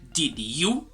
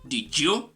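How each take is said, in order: First: The two words are said separately and carefully. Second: The two words run smoothly together as one. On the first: "instead of saying" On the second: "You're gonna say something like, ... more fluid"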